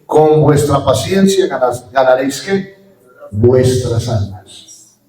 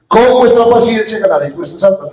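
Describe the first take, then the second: First: Drawn out, word by word; slow emphatic quote. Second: Said in the usual way. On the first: Shown as a demonstration. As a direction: spell the verse out slowly, leaning on each word. (cita lenta y enfática) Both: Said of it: "Vuelvo y repito".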